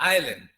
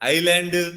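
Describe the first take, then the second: First: The final d is barely heard. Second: The final d is clearly pronounced. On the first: The speaker calls it right. "Little bit like ఎన్" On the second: The speaker calls it wrong. "ఐలాండ్ కాదు"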